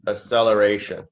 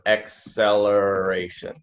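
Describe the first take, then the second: First: The first c sounds like a plain s. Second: The first c sounds like ks, as x. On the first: The speaker calls it wrong. "it sounds like you're saying" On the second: The speaker calls it right. "the first C is like an X"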